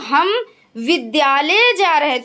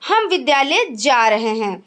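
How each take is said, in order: First: The stress is on the word विद्यालय. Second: No word carries special stress. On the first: "विद्यालय पर बल" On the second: "जैसे सामान्य"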